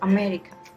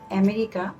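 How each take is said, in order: First: The unstressed vowel is a reduced schwa. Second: The unstressed vowel is a full vowel. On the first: The speaker calls it right. "it will be America" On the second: The speaker calls it wrong. "not America"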